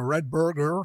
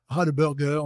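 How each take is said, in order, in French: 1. La première voyelle est un e fermé. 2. La première voyelle est un a ouvert. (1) "C'est pas Red Burger" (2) "un truc plus ouvert"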